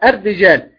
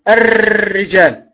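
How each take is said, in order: First: The r has only a slight trill. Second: The r is trilled heavily with several taps. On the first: The speaker calls it right. "لابد أن يكون ولو جزء يسير من التكرير" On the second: The speaker calls it wrong. "هذه هي الراء المكررة، وهذا من الخطأ"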